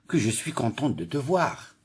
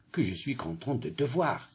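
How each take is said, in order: First: Said in the usual way. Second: Soft, tender gladness; joyful. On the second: Shown as a demonstration. Teacher showing pupils a joyful exclamation, joyful. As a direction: greet a friend you missed, gently. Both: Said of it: "La phrase C exprime la joie".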